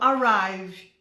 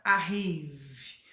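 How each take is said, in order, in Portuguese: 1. Ela é falada com sons do inglês. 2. Ela é lida com sons do português. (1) "antes da pessoa pronunciar errado, eu falo arrive" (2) "geralmente o brasileiro vai olhar e vai querer pronunciar arrive"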